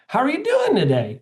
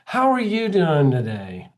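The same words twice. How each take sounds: First: The pitch goes up and sounds upbeat. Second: The pitch goes down and sounds flat. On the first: The speaker calls it right. "That's up talking" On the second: The speaker calls it wrong. "Like that's down talking"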